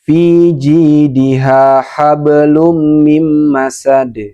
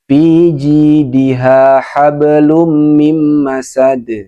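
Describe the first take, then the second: The two takes are said the same way.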